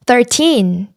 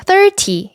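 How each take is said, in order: First: Put-on "thirteen" with weight on TEEN; stress on TEEN. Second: "thirty" with THIR high and stressed; stress on first syllable. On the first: Teacher contrasting teens and tens, stress on final syllable. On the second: Teacher contrasting teens and tens, first-syllable stress. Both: Shown as a demonstration. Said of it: "강세가 다르다는 거".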